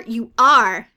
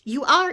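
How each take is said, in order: First: You are pushed much louder, falling; louder jeering repeat. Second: Rising high and loud you are; jeering repeat. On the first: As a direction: slam the final you are down hard. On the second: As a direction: toss it out, teasing upward. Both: A narrator's reading. Bird needles the witch.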